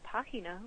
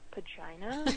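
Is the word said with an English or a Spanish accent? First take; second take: Spanish; English. First: The word is said with Spanish pronunciation. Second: The word is said with English pronunciation. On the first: "my name in Spanish is Pagina" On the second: "if you pronounce it in, like, the Anglo way"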